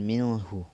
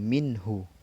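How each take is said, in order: First: The n sound is blurred and not pronounced clearly. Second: The n sound is pronounced clearly and distinctly. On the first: The speaker calls it wrong. "bukan minhu" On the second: The speaker calls it right. "dibaca jelas karena merupakan huruf izhar halki"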